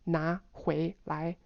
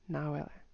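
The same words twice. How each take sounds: First: It is said slowly with full rising tones. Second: It is said very fast with reduced tones. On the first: "It's two two two" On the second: "say it like so fast that it's not even half anymore"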